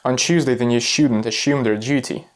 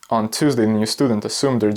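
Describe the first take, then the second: First: It is spoken in a British accent. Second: It is spoken in an American accent. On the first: "first we're doing the British one" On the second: "Let's do the American"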